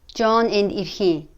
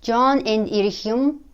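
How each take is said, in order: First: The final particle is shortened and linked. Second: The final particle is clearly pronounced in full.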